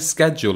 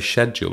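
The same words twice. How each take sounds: First: It is said with an American pronunciation. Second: It is said with a British pronunciation. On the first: "do the Americans say schedule" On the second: "and we say schedule"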